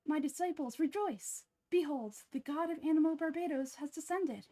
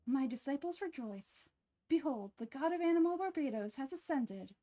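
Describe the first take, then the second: First: Grand proclamation, descended said right; louder, confident divine reveal; fixed second take of the god reveal; clean retake. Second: Grand reveal with ascended for descended; botched first take of the god reveal; fumbled proclamation. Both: Acted. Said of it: "Let me try that line again".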